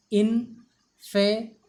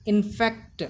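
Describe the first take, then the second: First: INFECT broken up: in, fe, then the final kt; sounded out in pieces. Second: Said in the usual way. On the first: Shown as a demonstration. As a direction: sound out infect slowly and firmly, part by part. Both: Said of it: "The pronunciation of the word is".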